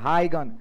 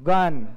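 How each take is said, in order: First: It begins with a clear 'high' sound. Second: It is said with a throaty Dutch sound. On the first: "CBSE" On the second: "जो Dutch होंगे वो बोलेंगे"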